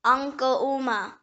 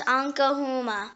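First: Ankouma with no h sound before the oo; first pronunciation. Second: Ankohuma with an audible h before oo; alternative pronunciation. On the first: Word lesson giving the main form, h-less pronunciation. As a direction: say Ankouma slowly, gliding from ko into oo-ma. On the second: Word lesson giving the other form, h-sounded pronunciation. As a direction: say Ankohuma as ahn-ko-HOO-ma, h sounded. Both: Shown as a demonstration. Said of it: "It can also pronounce".

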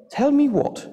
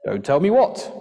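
First: High, questioning mum; mother's voice. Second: Big father's voice rising to a question; booming dad. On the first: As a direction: call out high like a mum demanding answers. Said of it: "came the voice of their mother". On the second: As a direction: boom it out, swooping up at the end. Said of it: "boomed a voice on the air". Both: A narrator's reading.

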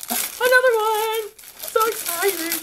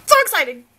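First: Sing-song slow and thrilled; excited coo. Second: High, louder "so exciting" with "so" punched; loud thrilled exclaim; excited. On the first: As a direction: coo over it with delight. Second gift, cooing. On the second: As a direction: burst out with glee. First exclaim over the gift. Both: Real, not acted.

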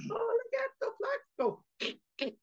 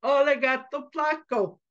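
First: Put-on very high, soft, slow little-girl taunt; tiny squeaky copycat tease; girl copying brother. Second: Put-on higher, sing-out little boy taunt; teasing boy. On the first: Little sister copying her brother's taunt at the cat, teasing. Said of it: "copied her brother". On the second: Boy mouse teasing the cat through the fence, teasing. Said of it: "boys love to tease".

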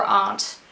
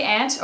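First: "aunt" said as AHNT, with an ah; broad-A aunt. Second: Said in the usual way. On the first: Shown as a demonstration. Asking viewers which they say, "aunt" as AHNT. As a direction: pronounce "aunt" to rhyme with "want". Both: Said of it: "Do you say aunt or".

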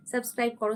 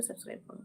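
First: Said in the usual way. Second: Whispered, voiceless subscribe plea; teasing whispered nudge to subscribe. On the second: Real, not acted. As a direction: breathe it out with no voice. Repeated subscribe plea, now whispered.

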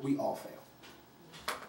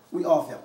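First: Breathy, slow whispered "we all fail". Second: Said in the usual way. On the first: Real, not acted. Speaker to audience, whispering the hard truth slowly. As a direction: drop to a hush, let it sink in. Hushed before plain repeat.

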